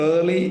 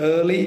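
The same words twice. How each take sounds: Both takes have the same delivery.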